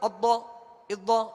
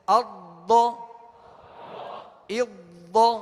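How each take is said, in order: First: The sound is released suddenly and cut short. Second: The sound is released slowly and drawn out. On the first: The speaker calls it wrong. "एकदम अद्दो इद्दो ऐसे नहीं" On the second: The speaker calls it right. "तसलसल के साथ आराम से हटेगा"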